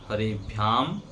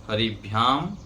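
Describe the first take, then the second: The two takes are said the same way.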